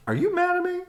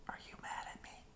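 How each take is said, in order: First: Much higher and louder anxious question. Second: Breathy secret whisper. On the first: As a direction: call it out urgently. Asking again, loudly. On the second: Psst, asking in secret. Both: Acted.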